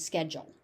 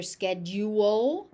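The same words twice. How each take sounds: First: "schedule" in two syllables, SKED-jul; accepted pronunciation. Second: "schedule" in three syllables, SKED-yoo-ul, rising; alternative pronunciation. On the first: Teacher giving the accepted American form, sked-jul. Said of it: "the accepted pronunciation is". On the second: Teacher showing learners a variant they may hear, sked-yoo-ul. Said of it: "You may also hear". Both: Shown as a demonstration.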